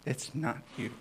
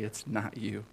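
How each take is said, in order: First: Light teasing repeat, a little higher; said back to Jesse with a grin; playful repeat. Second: Said in the usual way. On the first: Real, not acted. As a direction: tease it gently. Repeated line after a laugh.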